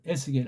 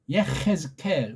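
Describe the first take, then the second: First: The name is pronounced E-seu-gel, with three syllables. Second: The name is pronounced Ye-hez-kel, with four syllables.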